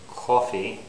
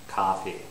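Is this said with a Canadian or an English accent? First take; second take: English; Canadian. First: The first vowel is a rounded 'o' sound. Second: The first vowel is an open unrounded 'ah'. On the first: "somebody from England might say coffee" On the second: "as a Canadian English speaker, I say coffee"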